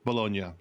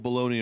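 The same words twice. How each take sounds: First: The word is said the local Italian way. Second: The word is said the common anglicized way. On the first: This is how the region's name is really said. The speaker calls it right. "but it is Bologna" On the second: This is how most people outside the region say it. The speaker calls it wrong. "it is called Bologna around the west of the world because nobody pronounces it correctly"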